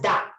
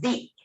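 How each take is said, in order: First: The vowel sounds like a short 'uh'. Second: The vowel sounds like a long 'ee'. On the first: It is used before a consonant sound. "Before consonant sound, we pronounce it as da" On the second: It is used before a vowel sound. "Before vowel sounds, we pronounce the as di"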